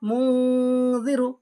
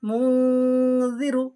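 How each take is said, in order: No difference in how they are said.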